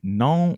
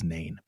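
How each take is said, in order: First: The word is said with a French pronunciation. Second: The word is said with an American pronunciation.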